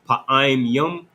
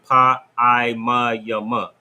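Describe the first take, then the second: First: The words are read without extra final vowels. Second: The words are read with extra vowels added. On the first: The speaker calls it right. "instead of saying" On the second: The speaker calls it wrong. "we just go character for character"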